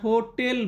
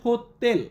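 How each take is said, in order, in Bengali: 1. এটি বাংলা উচ্চারণে বলা হয়েছে। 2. এটি পোলিশ উচ্চারণে বলা হয়েছে। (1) "আমরা হোটেল বলি" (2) "পোলিশ ভাষাতে উচ্চারণ করা হয় হোতেল"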